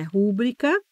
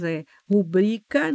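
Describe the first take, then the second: First: Rúbrica said RU-bri-ca, stress on the first syllable; wrong pronunciation. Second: Rubrica said ru-BRI-ca, stress on bri; correct pronunciation. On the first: Teacher shows students the mistaken rúbrica, stress on ru. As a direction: lean on rú in rúbrica. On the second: Teacher models rubrica for students, stress on bri. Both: Shown as a demonstration. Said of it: "não é rúbrica".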